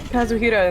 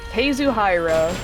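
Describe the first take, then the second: First: The r is a quick tapped sound. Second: The r is a smooth English r. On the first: The speaker calls it right. "the little... roll to R" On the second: The speaker calls it wrong. "we're not going to sit here and say, like"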